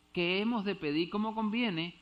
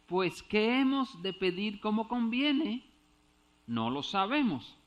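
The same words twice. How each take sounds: First: "¿Qué hemos de pedir como conviene?" read falling like a statement; as printed, no question. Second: "¿qué hemos de pedir como conviene?" with a clear questioning tune, slower and louder; read as a question. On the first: Preacher showing the verse without question marks, stating. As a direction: read it flat as the translation prints it. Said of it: "Ahí faltan los signos de interrogación". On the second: Preacher rereading the verse to show the missing question mark, asking. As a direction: ask it as a real question to the congregation. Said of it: "¿Qué sería?".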